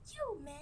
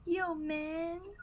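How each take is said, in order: First: It is said at a normal, softer volume. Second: It is said more loudly.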